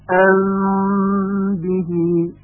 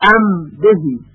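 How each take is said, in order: First: The m is hidden with nasal resonance before b. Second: The m is pronounced as a clear, pure m. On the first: "میم هم چون قبل از ب واقع شده طبق قاعده اخفا میشه" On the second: "یک نیم خالص تلفظ میشه و به هیچ وجه اخفاء کبیر صورت نمیگیره"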